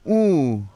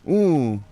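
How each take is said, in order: The two takes are said the same way.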